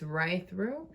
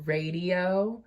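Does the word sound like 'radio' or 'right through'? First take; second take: right through; radio. First: It is said like the words 'right through'. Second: It is said like the word 'radio'. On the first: The speaker calls it right. "but it's right through" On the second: The speaker calls it wrong. "I always saw it as like radio"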